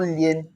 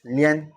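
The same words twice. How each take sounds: First: Lien with a close E, as "lee-en"; lien, close-E version; wrong vowel. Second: Lien with an open "eh" vowel; lien, said as "lyen" with eh. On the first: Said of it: "it's not lien ... and open E". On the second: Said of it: "and open E". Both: Shown as a demonstration.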